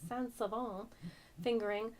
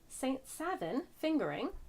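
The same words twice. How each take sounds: First: The name is pronounced a non-American way. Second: The name is pronounced the American way. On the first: "but I'm sure it's" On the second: "how the Americans pronounce it"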